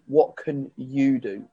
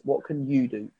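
First: Slow, deliberate "what can you do?" with weight on "you"; stress on you. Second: "What can you do?" with the word "you" punched; stress on YOU. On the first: Coach pressing the client to own the action, slow stress on "you". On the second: Coach putting the emphasis on the client, stress on "you". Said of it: "putting the emphasis on them". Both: Shown as a demonstration.

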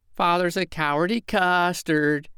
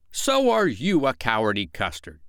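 First: Put-on high sing-song child's taunt. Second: Emphatic start, falling petulant retort; childish comeback. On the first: Michael calling Father a coward, taunting. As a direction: jeer in a little boy's voice. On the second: Father returning Michael's taunt, petulantly. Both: A narrator's reading.

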